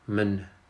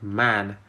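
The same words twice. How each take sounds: First: The vowel is reduced to a weak schwa. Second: The vowel is a full open a sound. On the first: The speaker calls it right. "you can hear that I'm saying uh, man" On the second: The speaker calls it wrong. "instead of man"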